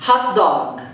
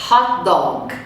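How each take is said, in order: Both takes have the same delivery.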